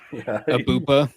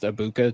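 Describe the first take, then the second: First: The middle consonant is a P sound. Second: The middle consonant is a K sound. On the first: This imitates someone else's mispronunciation. The speaker calls it wrong. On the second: This is the name as it should be said. The speaker calls it right.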